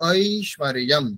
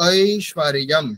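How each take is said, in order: Both takes have the same delivery.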